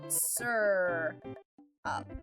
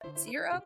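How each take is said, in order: First: The first syllable sounds like 'sir'. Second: The first syllable sounds like 'sear'. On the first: This is the speaker's own usual way. "This is how I pronounce this word. It's sir up" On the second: Someone else says it this way. "But my hubby says sear sear up?"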